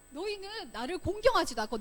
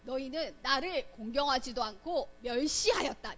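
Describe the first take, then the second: First: God calling the people to account, pitched higher; confronting accusation. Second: Said in the usual way. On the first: Acted. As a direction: press the accusation firmly. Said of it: "이렇게 따지듯이 말했어요". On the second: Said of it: "따지듯이 시작".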